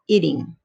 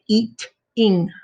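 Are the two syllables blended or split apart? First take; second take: blended; split. First: The two syllables run together smoothly. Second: The two syllables are separated by a break. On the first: The speaker calls it right. "we say eating" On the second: The speaker calls it wrong. "we don't say eat-ing"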